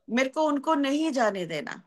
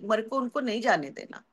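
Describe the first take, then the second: First: Determined, with weight on "नहीं"; insistent repeat. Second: Said in the usual way. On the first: Acted. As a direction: lean hard on "नहीं", holding it longer. Same thought repeated with insistence.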